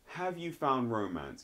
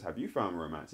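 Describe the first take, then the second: First: Said in the usual way. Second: "you" stressed to turn the question back, pitched lower. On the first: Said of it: "he asks her a question". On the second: Retold or imitated. She reciprocates his question, stress on "you". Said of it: "She reciprocates back the ca-, question".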